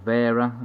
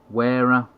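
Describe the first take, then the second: First: The word begins with a V sound. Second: The word begins with a W sound.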